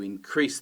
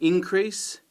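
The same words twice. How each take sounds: First: The stress is on the second syllable. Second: The stress is on the first syllable. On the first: It is used as a verb. "that's the verb, stress on the second syllable" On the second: It is used as a noun. "that's the noun"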